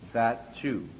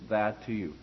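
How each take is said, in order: First: The T and Y merge into a CH sound. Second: The T stays separate and clean before you. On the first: The speaker calls it wrong. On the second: The speaker calls it right.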